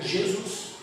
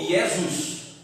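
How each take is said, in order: First: The name begins with a J-like sound. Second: The name begins with a Y-like sound. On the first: This is the Portuguese form of the name. "se lê como J" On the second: This is the Latin form of the name. "ele foi substituído pelo J, que tem o som de I naquela língua"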